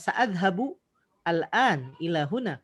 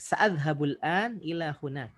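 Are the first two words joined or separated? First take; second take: separated; joined. First: The words are split with a separate vowel. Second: The words are linked into one smooth run. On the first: The speaker calls it wrong. "Kalau misalnya mau dipotong" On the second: The speaker calls it right. "Jadi mending"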